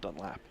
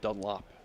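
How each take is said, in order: First: The last syllable has an 'a' vowel. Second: The last syllable has an 'o' vowel. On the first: The speaker calls it wrong. "not Dunlap" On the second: The speaker calls it right. "I don't have an A in my last name"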